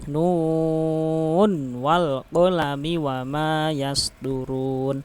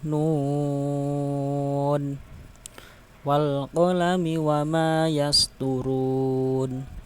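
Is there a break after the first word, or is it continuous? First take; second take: continuous; break. First: The first word runs straight into the next. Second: There is a stop after the first word. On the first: "boleh diwasolkan dengan cara ya ini" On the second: "biasanya kan diwakafkan"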